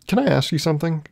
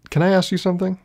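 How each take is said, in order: First: Said in the usual way. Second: Lifted pitch, emphasis on ask; higher, brighter retake. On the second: Shown as a demonstration. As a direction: ask it again, voice up high.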